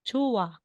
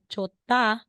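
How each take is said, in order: First: No consonant is heard in the middle. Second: A T sound is heard in the middle. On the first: The speaker calls it right. "magiging chua or chowa" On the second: The speaker calls it wrong. "instead na sasabihin mo na chota"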